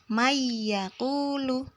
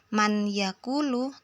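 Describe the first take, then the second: First: The n sound merges into the following y. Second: The n sound is pronounced clearly before y. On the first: The speaker calls it right. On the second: The speaker calls it wrong. "membacanya bukan"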